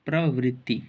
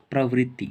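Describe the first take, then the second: No difference in how they are said.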